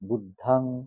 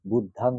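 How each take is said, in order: First: The second vowel is an A sound. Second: The second vowel is an A sound.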